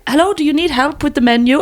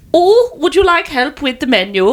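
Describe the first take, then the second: First: Higher-pitched imitation of a German woman; mock German accent, pitched up. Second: Put-on German accent drifting towards Dutch, pitched up; higher, mock Dutch-German accent; Dutch-sounding accent. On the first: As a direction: put on a helpful German accent. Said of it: "sounded German". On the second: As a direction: imitate a helpful woman with a Dutch-tinged accent. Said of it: "That sounded more sort of".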